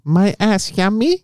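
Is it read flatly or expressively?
expressively. It is read expressively, in the intended tone.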